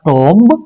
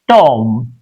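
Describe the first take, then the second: First: A b sound is heard at the end. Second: No b sound is heard at the end. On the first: The speaker calls it wrong. "So it's not tomb" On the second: The speaker calls it right. "B is silent"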